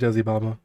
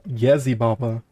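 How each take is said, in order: First: The name begins with a J sound. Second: The name begins with a Y sound. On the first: "I'm not gonna pronounce that with a Y" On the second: "It's with a Y"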